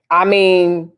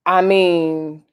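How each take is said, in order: Both takes have the same delivery.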